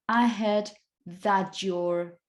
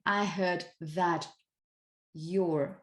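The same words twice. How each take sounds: First: The t and y merge into a ch sound. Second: The t and y are said separately. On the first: "Mixing these two" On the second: "Instead of saying"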